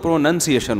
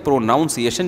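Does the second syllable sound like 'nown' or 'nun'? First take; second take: nun; nown. First: The second syllable sounds like 'nun'. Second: The second syllable sounds like 'nown'. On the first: The speaker calls it right. "तो प्रोनंसिएशन होता है" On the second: The speaker calls it wrong. "प्रोनाउंसिएशन जब होगा"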